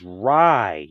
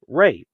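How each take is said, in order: First: The vowel sounds like the one in 'eye'. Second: The vowel sounds like the one in 'day'. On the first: The speaker calls it right. "is Rye" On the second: The speaker calls it wrong. "not Ray"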